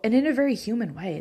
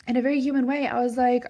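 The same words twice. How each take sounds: First: Said in the usual way. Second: "very" raised and louder; emphatic repeat. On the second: Real, not acted. Mom admitting her own snap at her son, stressing "very" loud and high. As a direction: punch the word "very" high.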